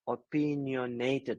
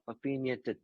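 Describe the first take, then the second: First: The final '-nated' keeps its full stress. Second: The final '-nated' loses its stress and weakens. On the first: The speaker calls it right. "It's about opinionated" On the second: The speaker calls it wrong. "You are just reducing the last stress"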